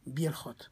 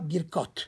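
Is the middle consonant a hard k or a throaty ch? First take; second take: throaty ch; hard k. First: The middle consonant is a throaty ch sound. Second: The middle consonant is a hard k sound. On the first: The speaker calls it right. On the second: The speaker calls it wrong.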